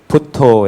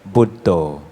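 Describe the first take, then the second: First: The word is pronounced the Thai way. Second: The word is pronounced the non-Thai way.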